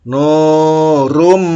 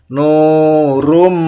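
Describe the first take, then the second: No difference in how they are said.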